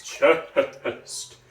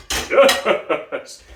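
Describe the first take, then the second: First: Full chest-resonant voice; chest resonance. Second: Higher, louder chest call. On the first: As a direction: speak from the chest. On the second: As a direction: lift it up high and loud. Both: Shown as a demonstration. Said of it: "chest resonance".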